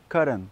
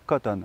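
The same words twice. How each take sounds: First: The middle t is a quick, light d-like tap. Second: The middle t is pronounced fully and slowly. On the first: "beaucoup plus rapidement en anglais, donc ça va donner cotton" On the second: "un français de base qui va le prononcer, il va dire voilà, peut-être cotton"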